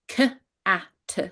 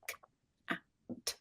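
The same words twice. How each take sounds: First: Each consonant sound ends with an added 'uh' vowel. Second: Each consonant sound is crisp with no added vowel. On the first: The speaker calls it wrong. "you are adding that what we call a schwa, the uh sound, to the end of the consonant phonemes" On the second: The speaker calls it right. "voice the phonemes really, really crisply"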